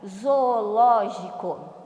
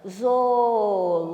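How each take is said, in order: First: Said in the usual way. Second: ZOOLÓGICO split into zo-o-ló-gi-co, slow and loud; syllable by syllable. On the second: Shown as a demonstration. Teacher has pupils count syllables, "Zoológico" syllable by syllable. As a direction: say "Zoológico" loudly, stretching each syllable. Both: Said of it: "Vamos ver quantas sílabas".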